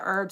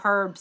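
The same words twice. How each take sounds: First: The word is said the American way. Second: The word is said the British way.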